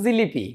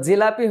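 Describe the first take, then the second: First: The middle vowel is an i sound. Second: The middle vowel is an open a sound. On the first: The speaker is putting on airs. "বেশি ভাব লইবার যাইয়া ধ্বনির পরিবর্তন করে ফেলছে" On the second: The speaker is talking plainly. "জিলাপি হয়ে যেত জিলিপি"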